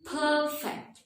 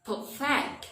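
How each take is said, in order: First: PERFECT as high, long PER, short fect; stress on first syllable. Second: PERFECT as short per, stressed rising FECT; stress on second syllable. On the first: Teacher showing the adjective, perfect stressed on PER. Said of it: "The adjective". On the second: Teacher showing the verb, perfect stressed on FECT. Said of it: "the stress change to the second syllable". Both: Shown as a demonstration.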